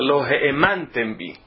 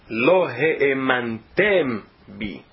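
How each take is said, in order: First: The stress falls on the second-to-last syllable. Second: The stress falls on the last syllable. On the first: You did not believe in me. The speaker calls it wrong. "que é paroxítona, significa outra coisa" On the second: You did not make me believed. The speaker calls it right. "ler as palavras com a acentuação correta"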